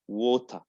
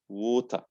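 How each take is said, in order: No difference in how they are said.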